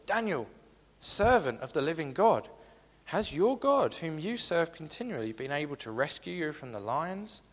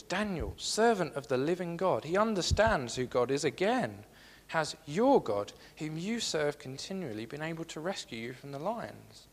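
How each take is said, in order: First: Anguished call. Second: Mild anguished call. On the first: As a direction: cry out to him in fear for his friend. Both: Acted. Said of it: "in an anguished voice".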